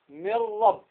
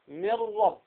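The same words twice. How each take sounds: First: The n merges fully into a doubled r. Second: The same.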